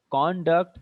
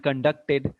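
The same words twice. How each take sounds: First: Slow "conduct" said CON-duct; stress on first syllable. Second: Slow "conducted" said con-DUC-ted; stress on second syllable. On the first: Teacher contrasting noun and verb, first-syllable stress on "conduct". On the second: Teacher contrasting noun and verb, second-syllable stress on "conducted". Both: Shown as a demonstration. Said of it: "there's a difference".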